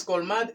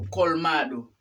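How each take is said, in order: First: "colmad" with the final o dropped; "colmad" ending on the d; learner's error. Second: "colmado" with the final o sounded; "colmado" keeping its last vowel; correct full ending. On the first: Retold or imitated. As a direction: imitate the mistake, "colmad" in two syllables. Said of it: "pero no es colmad". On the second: Shown as a demonstration. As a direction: say "colmado" in three syllables. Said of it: "es colmado".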